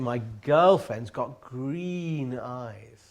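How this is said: The word green is stressed, sounding affectionate. The speaker calls it right. "the way that you stress the word green is has affection in it"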